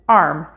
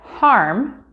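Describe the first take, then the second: First: The word begins without an h sound. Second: The word begins with an h sound. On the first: "get pronounced as arm" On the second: "words like harm"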